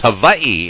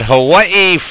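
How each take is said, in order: First: The middle consonant is a V sound. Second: The middle consonant is a W sound. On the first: The speaker calls it right. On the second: The speaker calls it wrong.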